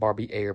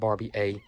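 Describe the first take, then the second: First: The name ends with an 'air' sound. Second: The name ends with an 'ay' sound. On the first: The speaker calls it wrong. "not Barbie Air" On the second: The speaker calls it right. "but Barbie A. I think that's how you say it"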